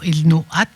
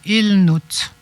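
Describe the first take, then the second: First: The final vowel is pronounced before the t. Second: The final vowel is silent before the t. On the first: The speaker calls it wrong. "On ne dit pas il no at" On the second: The speaker calls it right. "on dit il note"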